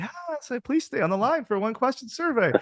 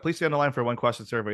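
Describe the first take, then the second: First: It is said slowly and very chirpily. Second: It is said in a plain, flat way.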